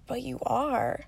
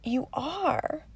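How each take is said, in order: First: Lightly voiced small child, soft and earnest; a hint of a young girl reassuring her mom; serious little daughter. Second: Put-on higher, softer child voice pressing the point; insisting little daughter. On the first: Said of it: "she looked at me so seriously". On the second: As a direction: imitate a small girl insisting gently. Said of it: "She's like".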